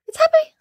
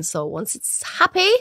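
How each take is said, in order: First: Squeaky happy. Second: Said in the usual way. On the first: Shown as a demonstration. Repeats happy for emphasis.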